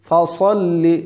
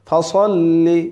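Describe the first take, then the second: Both takes have the same delivery.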